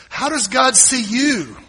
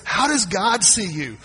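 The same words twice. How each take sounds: First: Louder, slower, higher second time; booming repeat. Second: Said in the usual way. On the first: Acted. Preacher pressing the congregation with a louder repeat. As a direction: lean in hard on the repeat. Repeated question building to shout.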